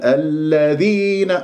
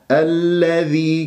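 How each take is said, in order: First: الذين with the ذ wrongly pressed and held; leaning on dhal. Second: Slow الذي with a light ذ into long i; no leaning. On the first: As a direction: lean heavily on the ذ in الذين. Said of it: "ولا تتكئ على الذال". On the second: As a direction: glide through ذ in الذي without pressing. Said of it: "كسرة الذال من غير اتكاء". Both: Shown as a demonstration.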